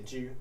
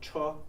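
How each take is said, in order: First: The word is said as 'ju'. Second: The word is said as 'cho'. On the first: It names the chariot piece in the game. "we don't say Cho in Xiangxi, we say Ju" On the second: It means car in everyday use. "the traditional variant of Cho, meaning car"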